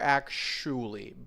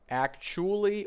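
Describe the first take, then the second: First: The middle consonant sounds like sh. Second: The middle consonant sounds like ch. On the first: "Both ch and sh are" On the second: "Both ch and sh are"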